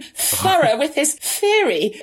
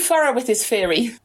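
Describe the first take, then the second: First: The th sounds are said with the tongue between the teeth. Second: The th sounds are replaced with f sounds. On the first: The speaker calls it right. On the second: The speaker calls it wrong.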